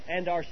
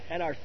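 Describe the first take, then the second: The two takes are said the same way.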